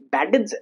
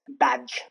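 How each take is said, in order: First: The ending is not a plain J sound. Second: The ending is a plain J sound. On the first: The speaker calls it wrong. "it's not badge" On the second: The speaker calls it right. "It's badge"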